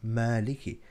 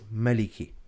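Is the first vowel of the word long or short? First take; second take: long; short. First: The first vowel is stretched long. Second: The first vowel is kept short. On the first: The speaker calls it right. "Mim Fatha Alif Saghira Ma" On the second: The speaker calls it wrong. "another common mistake, people read this word as"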